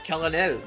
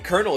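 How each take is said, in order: First: The word is said in a French-like way. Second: The word is said the everyday English way. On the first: The speaker calls it right. "It's supposed to be colonel. But we don't say it that way because we're not French" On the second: The speaker calls it wrong. "It's not even supposed to be colonel"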